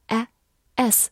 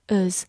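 First: "as" with a wide-open A and final Z; full-vowel as. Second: "as" reduced to a schwa plus Z; weak-form as. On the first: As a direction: say "as" slowly, mouth wide on the A. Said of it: "字母A发大口的A，S发Z". (as读成大口的A，S发Z) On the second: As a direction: say "as" in its weak, unstressed vowel form. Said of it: "它也可以弱读成as". (as弱读，A读成轻短的弱元音) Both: Shown as a demonstration.

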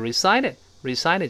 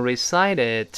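First: Said in the usual way. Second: "recited" with the final consonant audibly released; careful "recited", every consonant sounded; very slow, careful reading. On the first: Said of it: "但一般的读法就是recited". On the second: Shown as a demonstration. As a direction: spell out "recited" slowly, ending clearly popped. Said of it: "非常慢的，也能读成recited".

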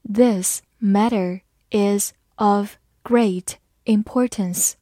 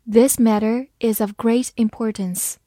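First: Slow, word by word; slow read-along. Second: Said in the usual way. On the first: Shown as a demonstration. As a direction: read it slowly, pausing after each word. (慢慢逐词朗读) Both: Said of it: "慢慢来读".

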